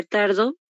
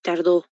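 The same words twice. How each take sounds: First: Tardo stressed on the first syllable, TAR-do. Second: Tardó stressed at the end, tar-DÓ, pitch dropping; tardó as a past-tense verb, tar-DÓ; stress on the final O. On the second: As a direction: land the stress on the last syllable of tardó. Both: Shown as a demonstration. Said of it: "En este caso sería tardo".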